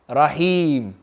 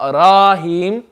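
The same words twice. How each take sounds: First: The first vowel is short and quick. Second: The first vowel is stretched long. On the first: The speaker calls it right. "Nice and quick" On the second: The speaker calls it wrong. "not rahim"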